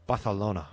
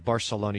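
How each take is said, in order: First: The 'c' is said with a lisp, like 'th'. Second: The 'c' is said as a plain 's' sound. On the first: This is the way it is said in Spain. The speaker calls it right. "you got to say Barcelona" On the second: This is the Mexican way of saying it. The speaker calls it wrong. "You can't say Barcelona"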